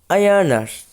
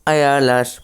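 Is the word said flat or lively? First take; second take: lively; flat. First: The word is said with lively intonation. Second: The word is said flat and lifeless. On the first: "Şimdi ayarlar diye söylüyor" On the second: "böyle durgun söylüyordu"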